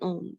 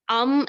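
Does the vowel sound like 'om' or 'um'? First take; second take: om; um. First: The vowel sounds like 'om'. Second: The vowel sounds like 'um'. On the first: The speaker calls it right. "Here we are saying om" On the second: The speaker calls it wrong. "Here we are not saying um"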